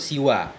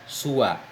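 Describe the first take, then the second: First: The first vowel is i. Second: The first vowel is u. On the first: "Bil kasri, maksur" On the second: "wa dhammis sin dan dengan dhammah sin"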